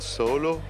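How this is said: The word begins with an s sound. This is the standard French way of saying it. "Comme vous, vous dites solo"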